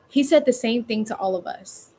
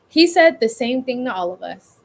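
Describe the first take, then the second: First: It sounds like a question to someone. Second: It sounds declared outward to everyone. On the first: The speaker is checking with another person. "I'm talking to a scene partner... You're asking someone" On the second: The speaker is exclaiming to anyone listening. "Or you can do"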